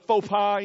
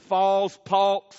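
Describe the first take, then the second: First: It is said in a plain standard accent. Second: It is said in a Southern US accent.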